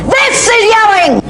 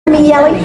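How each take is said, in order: First: High, drawn-out yell; sudden high-pitched shout; demonstrated yell. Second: Said in the usual way. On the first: Shown as a demonstration. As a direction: yell it slowly to prove the point.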